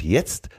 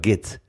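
First: The word begins with a soft Y sound. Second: The word begins with a hard G sound. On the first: "statt jetzt" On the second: "sagt er immer geht's. ... Immer mit G"

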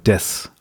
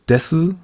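First: The final u is dropped. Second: The final u is fully pronounced. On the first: "oft nur Des" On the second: "dieses Abschlusswort Desu"

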